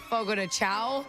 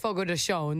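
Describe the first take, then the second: First: The name is pronounced the English way. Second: The name is pronounced the Portuguese way. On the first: The speaker calls it wrong. "A lot of people say" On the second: The speaker calls it right. "it's Portuguese, it's Brazilian ... That's how you say that"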